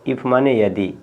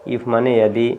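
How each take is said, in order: The two takes are said the same way.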